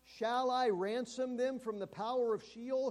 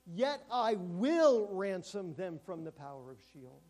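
First: Raised, louder questioning read; rhetorical question. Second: Loud, slow, stress on will; a promise, not a question; firm statement. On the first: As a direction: ask it as a doubting question. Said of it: "Reads it as a rhetorical question". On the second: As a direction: declare it, leaning on will. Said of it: "he's making a statement". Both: Shown as a demonstration.

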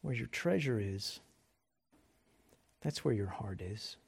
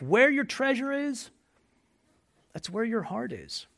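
First: Hushed and reflective; soft reflective repeat. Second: Emphatic proclamation. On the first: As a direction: lower and softer, letting it sink in. Quiet repeat of the verse. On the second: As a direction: declare it to the whole room. Proclaiming the key verse. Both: Real, not acted.

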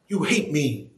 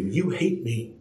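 First: "hate" leaned on, falling; stress on hate. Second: Lower, softer you hate me; first take, dropped low. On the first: God's verdict repeated with "hate" stressed. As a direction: land hard on "hate". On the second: God's verdict said low and soft first. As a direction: let "you" fall quietly. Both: Shown as a demonstration.

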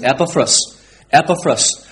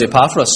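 First: Epaphras stressed on the first syllable; EP-uh-fruss, front-stressed Epaphras; correct pronunciation. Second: Epaphras stressed on the second syllable; ih-PAF-russ, middle-stressed Epaphras; local pronunciation. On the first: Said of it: "the correct pronunciation of this man's name". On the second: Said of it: "but I'm from Limavady". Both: Shown as a demonstration.

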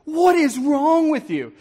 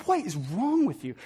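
First: High, slow, exasperated outburst; acted-out open exasperation at someone; outspoken anger. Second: Soft, muttered exasperation; quiet, acted-out grumbling; mumbling under breath. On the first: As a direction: say it straight out, higher and drawn out. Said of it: "no longer are we mumbling". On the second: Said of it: "start mumbling under our breath".

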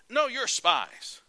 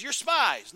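First: Slow, loud, much higher accusation; slow menacing insistence. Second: Shouted accusation, much higher and louder; angry shout. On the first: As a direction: drag each word out to crush their denial. Joseph insists, slowly. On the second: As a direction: bark it out at the brothers. Joseph accuses them again. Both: Acted.

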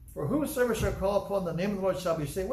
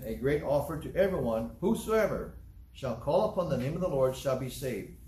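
First: "whosoever" lifted higher, ending on a rise; emphatic rereading. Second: Said in the usual way. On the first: Shown as a demonstration. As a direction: reread it as a discovery. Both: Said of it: "Well, wait a minute".

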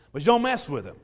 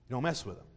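First: Louder, weight on don't; firm warning. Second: Much softer, low, weight on mess; soft echo. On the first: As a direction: hammer the warning home. Warning repeated for emphasis. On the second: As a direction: let the warning sink in quietly. Warning repeated softly after pause. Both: Acted.

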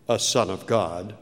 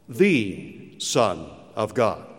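First: "a" lifted on a rise in "a son of God"; stress on a. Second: "the" weighted and slow in "the Son of God", falling; stress on the. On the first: Preacher contrasting any believer with Christ, stressing "a". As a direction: lean on the small word "a" in "a son of God". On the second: Preacher insisting Jesus is unique, stressing "the". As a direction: hammer "the" slowly in "the Son of God". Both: Shown as a demonstration.

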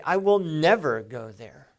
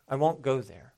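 First: "never" punched loud and drawn, falling after; stress on never. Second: Said in the usual way. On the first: Shown as a demonstration. Contrasted with just saying I won't go, emphatic "never". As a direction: drive "never" home as an absolute vow. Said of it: "It's another thing to say". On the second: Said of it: "It's one thing to say".

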